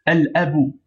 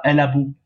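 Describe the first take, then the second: First: Al abu with a clean break before abu; read separately. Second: Al abu run together as "alabu"; wrong liaison. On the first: Teacher correcting the liaison, Al and abu kept apart. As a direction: finish Al, then start abu afresh on its own vowel. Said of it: "Non, séparément". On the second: Teacher showing learners' error, al abu slurred into one word. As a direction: link the l of al straight into abu. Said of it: "ils font la liaison". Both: Shown as a demonstration.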